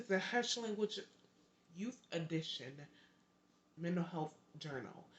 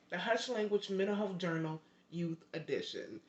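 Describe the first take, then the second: First: Halting title with stumbling pauses; tongue-tied. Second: Careful, unbroken run through the title; saying it right. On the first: Host fumbling her own book's title, tongue-tied. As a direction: stop and start through the title. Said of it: "I'm getting tongue-tied on my words". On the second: Host correcting her book's title, said carefully right. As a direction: say the whole title in one go. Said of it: "Let me say it right". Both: Real, not acted.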